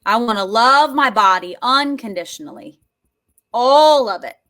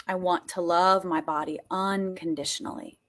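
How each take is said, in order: First: Loud, wholehearted declaration; forceful, louder, leaning on key words; emphatic affirmation. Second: Low, softly sincere; subdued heartfelt affirmation; gentle affirmation. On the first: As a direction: declare it with full conviction. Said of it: "Are you ready for this?". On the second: Gentle take before the emphatic one. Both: Shown as a demonstration.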